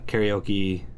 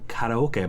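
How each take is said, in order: First: The word is pronounced in the American way. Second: The word is pronounced in the Japanese way.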